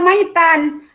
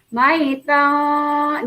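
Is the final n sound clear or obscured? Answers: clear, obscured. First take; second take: clear; obscured. First: The n sound is pronounced clearly. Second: The n sound is obscured and nasal. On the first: This is how it is written. "Tulisannya maitan" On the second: This is how it is read. "bacanya maitan, disamarkan"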